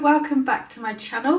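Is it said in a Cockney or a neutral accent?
Cockney. It is said in a slightly Cockney accent.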